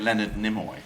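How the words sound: The name is said the British way. "It's very English because we say"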